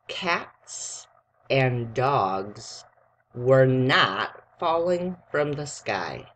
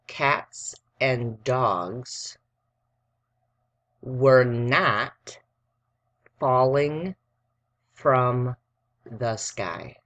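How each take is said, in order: First: It is read at normal speed. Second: It is read slowly.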